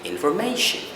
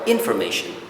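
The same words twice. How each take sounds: First: The stress is on the second-last syllable. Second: The stress is not on the second-last syllable. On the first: The speaker calls it right. "if we go by the rule, it's is or it has to be information" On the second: The speaker calls it wrong. "normally, people would say information"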